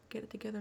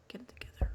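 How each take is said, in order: First: Said in the usual way. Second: Sharp self-scolding. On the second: Real, not acted. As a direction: snap yourself out of it.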